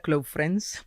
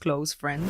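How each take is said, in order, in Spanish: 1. Se dice con una pronunciación al estilo español. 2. Se dice con una pronunciación al estilo inglés. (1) "tal cual se pronuncia" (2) "más pronunciado en el inglés"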